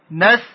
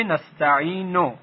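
First: «نستعینو» in four parts, نس، تَ، عی، نو, paused; syllable by syllable. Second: Said in the usual way. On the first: Shown as a demonstration. Teacher modelling a prayer word, «نستعینو» syllable by syllable. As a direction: separate every syllable of «نستعینو», holding «عی».

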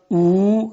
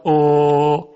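First: "او" held as a long oo; long u vowel. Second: "او" held long as o, never oo; stretched Persian o. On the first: Teacher showing what it never becomes, "او" as oo. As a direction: stretch "او" with an oo sound, not o. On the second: Teacher showing Persian o lengthened, "او" sustained. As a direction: draw "او" out, keeping the o sound. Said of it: "اگر شما او رو بکشید". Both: Shown as a demonstration.

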